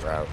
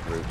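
First: "route" rhyming with "out"; alternate pronunciation. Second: "route" sounding like "root"; alternate pronunciation. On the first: Steering the ship, "route" said to rhyme with "out". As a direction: say "route" with an ow vowel, like "rout". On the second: Correcting oneself while steering, "route" said like "root". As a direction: say "route" with an oo vowel. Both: Shown as a demonstration. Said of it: "Is it route or route?".

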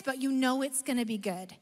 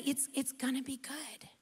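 First: Said in the usual way. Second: Hushed whisper of a secret promise. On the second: Shown as a demonstration. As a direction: drop to a breathy whisper, almost unvoiced. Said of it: "You don't know what's gonna".

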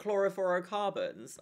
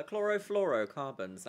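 First: Chlorofluorocarbons said as "chloro-foro-carbons"; mispronounced word. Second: Said in the usual way. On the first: Real, not acted. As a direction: drop the L from the "fluoro" in chlorofluorocarbons. Stumbles, then repeats the word corrected.

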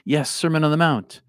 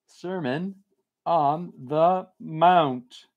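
First: Said in the usual way. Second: Mount stretched out very slowly, as if writing; slow dictation. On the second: Shown as a demonstration. Reads the request aloud while writing it down, very slow. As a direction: drawl Sermon on the Mount out while jotting it down. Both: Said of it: "I'm gonna make a note".

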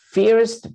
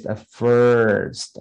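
First: "first" said as "feerst", high-pitched; mispronounced first. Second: "first" stretched slowly on an r-coloured "fur" vowel; correct first, drawn out. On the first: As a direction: say "first" wrongly with an ee vowel, like "feerst". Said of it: "Some people may say". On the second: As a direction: say "first" as a long, slow "furrrst". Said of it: "That's the pronunciation". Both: Shown as a demonstration.

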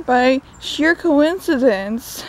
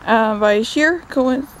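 First: Slow drawn-out sheer coincidence, sheer stressed; a knowing, emphatic sheer coincidence. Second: Said in the usual way. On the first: Shown as a demonstration. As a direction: lean on the word sheer, drawing it out. Restarts the phrase, drawn out.

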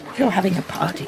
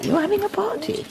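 First: You're leaned on; stress on you're. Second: Having pressed; stress on having. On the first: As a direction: lean on the word you're. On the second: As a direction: lean on the word having. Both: Acted.

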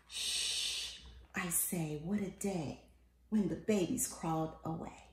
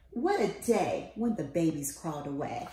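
First: Soft, hushed whisper of the refrain. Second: Said in the usual way. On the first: A narrator's reading. Parent hushing over a sleeping child, soft and hushed. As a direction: hush so the sleeper stays asleep.

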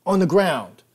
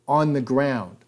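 First: Much higher and louder yelled order; shouted echo. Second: Louder firm order; firm command. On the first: Hogg repeating the cop's order, shouted. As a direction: yell it again, harder. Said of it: "Hogg echoed". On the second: Hogg echoing the cop's order, firm command. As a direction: order him down. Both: Retold or imitated.

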